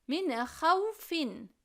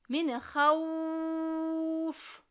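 First: The phrase ends with a final -in syllable. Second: The phrase ends on a bare consonant. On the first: "2 esre vardır" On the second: "Meddilin olduğu için min havf şeklinde okurum"

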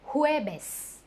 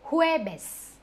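First: It begins with an H-like sound. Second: The same.

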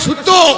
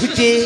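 First: The word ends in a rounded o vowel. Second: The word ends in a front e vowel. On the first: This is how people in Bardhaman say it. "আমরা বর্ধমানে সুতো" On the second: This is how people in Murshidabad say it. "আর এই মুর্শিদাবাদে সুতে"

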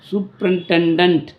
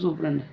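First: The word is said in full, every syllable. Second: The word is shortened, dropping its middle syllables. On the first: The speaker calls it right. "சூப்பரிண்டெண்டன்ட் அப்படின்னு வரணும்" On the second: The speaker calls it wrong. "அதை அதை வந்து சூப்பரண்ட்டுன்னு சொல்லிட்டிங்கன்னா எப்படி set ஆகும்?"

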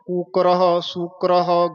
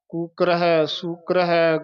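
First: Each word ends in a short breathy 'ah'. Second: Each word is followed by a full 'hai'. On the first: The speaker calls it wrong. "ਇਹ ਤਾਂ ਫਿਰ ਠੀਕ ਨਹੀਂ ਹੋਏਗਾ।" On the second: The speaker calls it right. "ਇਸ ਤਰ੍ਹਾਂ ਸੰਪਰਦਾਵਾਂ ਦੇ ਵਿੱਚ ਉਚਾਰਨ ਕੀਤਾ ਜਾਂਦਾ ਹੈ"

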